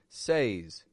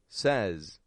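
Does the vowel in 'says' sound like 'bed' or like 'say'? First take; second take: like say; like bed. First: The vowel sounds long, like in 'say'. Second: The vowel sounds short, like in 'bed'. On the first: The speaker calls it wrong. "they're just reading it the way that it's spelled" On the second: The speaker calls it right. "as if it's an S E Z"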